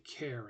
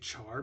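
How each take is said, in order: First: It begins with a k sound, like care. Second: It begins with a ch sound, like char. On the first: It follows the word character. "it is actually an abbreviation for character" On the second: It follows the spelling. "A lot of people say char because that's what it looks like"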